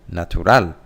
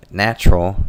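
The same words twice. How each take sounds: First: "natural" as Spanish na-tu-RAL; stress on last syllable. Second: "natural" as English NATCH-ral; stress on first syllable. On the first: Teacher showing where Spanish stress falls, end-stressed "natural". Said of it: "That's where the intonation goes up". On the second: Teacher giving the English example, first-syllable stress on "natural". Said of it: "The stressed syllable is on the first one". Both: Shown as a demonstration.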